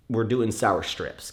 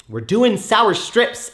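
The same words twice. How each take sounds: First: Said in the usual way. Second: Much higher, louder and slow, every word stretched; slow, loud, high hype for the candy; hyped. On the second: Real, not acted. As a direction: sell it like a big announcement. Repeats it, second time hyped.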